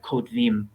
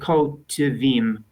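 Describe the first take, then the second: First: The word runs together into two syllables. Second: The word is broken into three separate syllables. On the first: "which sounds more like two syllables" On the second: "I tried to do it as three"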